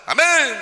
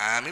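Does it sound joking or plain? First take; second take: joking; plain. First: It is said in a joking, playful way. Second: It is said in a plain, ordinary way.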